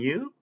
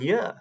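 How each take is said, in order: First: The word is said with a full vowel. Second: The word is said with its vowel reduced. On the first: "that's how we pronounce them sometimes" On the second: "most of the time, we pronounce them differently"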